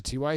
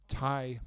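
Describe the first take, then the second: First: "T Y" said as two letters; "T Y" as separate initials; spelled-out initials. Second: "Ty" as one syllable, rhyming with "tie"; "Ty" run together as a first name. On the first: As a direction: say "T Y" letter by letter, tee-why. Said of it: "but it's Ty Montgomery". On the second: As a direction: say "Ty" as a single word, not initials. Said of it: "there's a T Y Hilton". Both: Shown as a demonstration.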